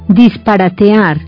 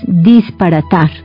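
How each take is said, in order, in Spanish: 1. La palabra termina en las sílabas 'te-ar'. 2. La palabra termina en la sola sílaba 'tar'.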